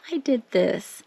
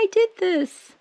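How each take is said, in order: First: Said in the usual way. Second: Much higher, delighted squeal; thrilled squeal. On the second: Real, not acted. Showing viewers her finished print, high delighted squeal. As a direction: squeal it out, proud and giddy.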